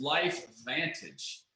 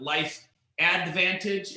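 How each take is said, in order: First: "LifeVantage" slow and low, with no Ad- before Vantage; correct company name. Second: "Advantage" said slowly with its opening Ad- sounded out; wrong company name. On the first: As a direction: say "LifeVantage" deliberately as Life-Vantage, dropping softer. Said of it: "It is LifeVantage". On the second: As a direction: stretch out "Advantage", keeping the first syllable Ad-. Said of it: "It is not Life Advantage". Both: Shown as a demonstration.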